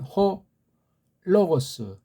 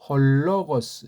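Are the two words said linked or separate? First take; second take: separate; linked. First: The two words are said separately, without linking. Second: The words are linked with a slight l sound. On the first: "따로 따라하면" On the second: "연독하면"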